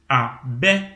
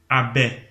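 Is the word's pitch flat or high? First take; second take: high; flat. First: The word is said with a high tone. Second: The word is said with flat, unvaried pitch. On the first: "abbé porte un ton haut. Et vous l'entendez quand je prononce abbé" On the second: "il n'y a eu aucune variation euh, dans- mélodique au niveau de ma voix"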